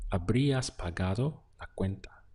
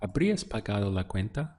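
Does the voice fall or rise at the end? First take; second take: fall; rise. First: The voice falls at the end. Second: The voice rises at the end. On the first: It states a fact. "Here we have you would have paid the bill" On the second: It asks a question. "we just use the intonation of our voice to make it into a question"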